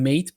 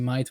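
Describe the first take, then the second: First: The vowel sounds like the one in 'late'. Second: The vowel sounds like the one in 'light'. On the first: This is how the spelling reads. "it's written mate" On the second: This is how the speaker usually says it. "I always say might"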